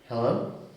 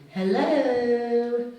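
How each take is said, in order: First: It is said in a normal, questioning voice. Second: It is said in a Mrs Doubtfire voice.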